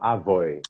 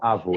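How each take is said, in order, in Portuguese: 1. A palavra termina com um glide 'oy'. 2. A palavra termina com a vogal 'oh' simples. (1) "eles falam avoi" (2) "eles não falam avô"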